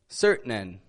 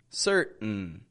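First: A vowel sound is heard between the T and the N. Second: No vowel sound is heard between the T and the N. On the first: The speaker calls it wrong. "If you move your tongue and you pronounce the vowel between the T and the N, it distorts the word a little bit. If you say certain, it's not quite what we want" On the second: The speaker calls it right. "We want certain. Holding your tongue in that N position"

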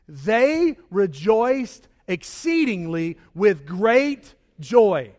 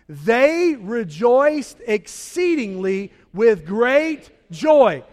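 First: It is read in a plain, calm way. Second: It is read with great joyful excitement.

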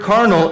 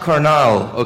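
First: It is pronounced the English way. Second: It is pronounced the Spanish way. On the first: It means fleshly. The speaker calls it right. "that word carnal" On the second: It means bro in slang. The speaker calls it wrong. "It's not that Mexican slang word for bro"

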